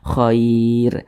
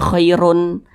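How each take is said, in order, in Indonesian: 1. Kata ini berakhir tegas pada bunyi 'r'. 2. Kata ini berakhir dengan bunyi 'un' tambahan. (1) "tapi dibaca khair" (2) "jangan dibaca khairun"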